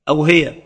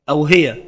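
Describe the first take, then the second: Both takes have the same delivery.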